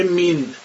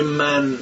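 First: مین with a long i vowel; Egyptian min. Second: من with a short open Persian a; Persian fathe. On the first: Retold or imitated. Teacher showing how Egyptians say من. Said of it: "من رو میگه". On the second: Shown as a demonstration. Teacher showing the Persian من the Egyptians can't say.

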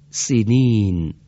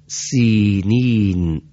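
First: سینین with a short, clipped first i; short kasra. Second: سینین with the first i held long, very slow; long kasra. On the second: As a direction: draw out the first vowel of سینین. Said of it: "حرف اولش دارای کسرهٔ کشیده هست". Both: Shown as a demonstration.

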